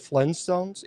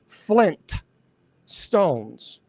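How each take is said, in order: First: The t at the end of Flint is dropped. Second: The t at the end of Flint is pronounced. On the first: The speaker calls it wrong. "is actually not pronounced the Flintstones" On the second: The speaker calls it right. "It's Flint Stones. There are two T's"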